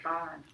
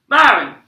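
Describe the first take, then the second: First: Soft, lower, tender name; gentle. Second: Loud, sharp call of the name; screamed name. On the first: Mama comforts her stuck son, gently. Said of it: "Mama said gently". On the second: Mama calls her stuck son, screaming. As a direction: cry out the name much too loud. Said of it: "So she didn't scream it". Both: A narrator's reading.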